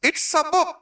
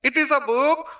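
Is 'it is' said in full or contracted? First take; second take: contracted; full. First: It is is contracted into one syllable. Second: It is is said as two full words. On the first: "ইটস" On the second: "ইট ইজ"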